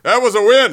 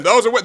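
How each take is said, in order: First: Raised, louder insistence; angry protest. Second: That was a win with "was" hit hard; stress on was. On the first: Host protesting the robbed Angels win, heated. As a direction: protest the call, voice up. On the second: Host insisting to viewers, stressing "was". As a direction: lean on "was" in a high voice. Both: Real, not acted. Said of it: "I'm just so angry".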